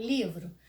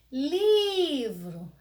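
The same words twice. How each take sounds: First: Said in the usual way. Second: Livro called out loud and high with a long drawn-out "Li"; calling the word. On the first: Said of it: "Basta você chamar a palavrinha". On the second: Shown as a demonstration. Teacher calling a word to find its tonic syllable, drawn-out Li. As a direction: stretch the Li of Livro as if calling someone. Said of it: "a sílaba que eu demorei mais".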